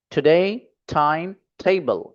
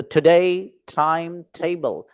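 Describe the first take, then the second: First: time table said slowly, stress on table; slow and even, lean on table; slow model reading. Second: time table said slowly, stress on time; slow and even, lean on time; slow model reading. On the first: Teacher drills class, stressing table. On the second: Teacher drills class in slow clear reading. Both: Shown as a demonstration. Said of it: "तीन बार पढ़ना है आपको इस तरीके से".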